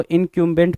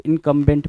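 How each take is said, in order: First: इनकम्बेंट pronounced "in-kyum-bent"; "kyum" reading. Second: इनकम्बेंट pronounced "in-kum-bent"; "kum" reading. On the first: Teacher showing how some people read it, इनकम्बेंट as "in-kyum-bent". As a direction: put a "kyu" glide in the middle of इनकम्बेंट. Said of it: "कुछ लोग इसको इनकम्बेंट पढ़ सकते हैं". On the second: Teacher showing how others read it, इनकम्बेंट as "in-kum-bent". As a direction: keep a simple "kum" in the middle of इनकम्बेंट. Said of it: "कुछ लोग इनकम्बेंट पढ़ेंगे". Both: Shown as a demonstration.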